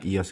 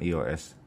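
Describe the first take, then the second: First: The name is said as a single word. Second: The name is spelled out letter by letter. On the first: The speaker calls it right. "Yang benar adalah satu kata" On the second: The speaker calls it wrong. "bukan I O S"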